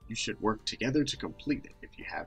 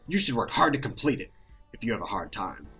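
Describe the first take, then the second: First: It is said in the narrator's own voice. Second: It is said in the teacher character's voice.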